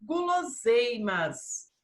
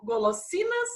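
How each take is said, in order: First: Guloseimas with a Portuguese u and z sound, slow; Portuguese pronunciation. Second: Golosinas with a clear Spanish o and s; Spanish pronunciation. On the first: Teacher models guloseimas in Portuguese for the class. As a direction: say guloseimas the Brazilian way, drawn out. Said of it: "e em português". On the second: Teacher models golosinas in Spanish for the class. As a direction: say golosinas the Spanish way, high and crisp. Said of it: "Então, em espanhol". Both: Shown as a demonstration.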